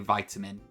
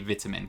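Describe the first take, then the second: First: It is said a non-British way. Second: It is said the British way. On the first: "We do not say vitamin in Britain" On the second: "I say vitamin"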